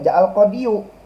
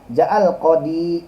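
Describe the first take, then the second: First: The last word ends with an added -yu. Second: The last word ends plainly in -i. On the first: The speaker calls it wrong. "nggak boleh dibaca ja'al qadiyu" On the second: The speaker calls it right. "domah muqaddarah"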